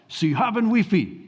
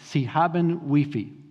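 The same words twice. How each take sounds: First: It is said in a harsh, intense way. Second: It is said in a plain, neutral way. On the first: "it always just sounded so harsh and intense. So we were like" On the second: "the phrase was"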